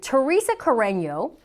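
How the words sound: The name is said with English pronunciation. "let me pronounce that in English for you"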